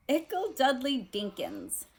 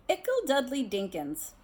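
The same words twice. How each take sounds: First: Put-on higher, gushing baby talk; doting aunt. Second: Put-on higher, gushing baby talk again; doting aunt. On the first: Aunt Petunia cooing over her son in his uniform, gushing. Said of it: "said she couldn't believe". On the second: Teacher repeats Aunt Petunia's pet name for Dudley, cooing. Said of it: "She has a lot of nicknames". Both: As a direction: coo it like a proud aunt.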